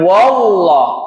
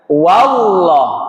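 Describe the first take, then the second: First: The first vowel is rounded toward an o. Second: The first vowel is an open a sound. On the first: The speaker calls it wrong. "bukan wallah" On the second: The speaker calls it right. "Bukan jadi wa, tapi tetap wa"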